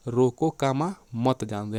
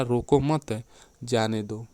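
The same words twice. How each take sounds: First: Slow "रोको", break at the spoken "comma", then "मत जाने दो" together; pause after रोको. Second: Slow "रोको मत" as one unit, break, then "जाने दो"; pause after मत. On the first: Teacher showing the first meaning, pause straight after "रोको". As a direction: set "रोको" apart, then run "मत जाने दो" on. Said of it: "पहला". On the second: Teacher showing the opposite meaning, pause falls after "मत". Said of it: "और दूसरा". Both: Shown as a demonstration.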